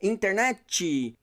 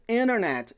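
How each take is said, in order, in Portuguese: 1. Um som extra "ee" é acrescentado no final. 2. Termina direto na consoante final. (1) "colocar uma letra I no final de tudo" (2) "não tem um izinho no final"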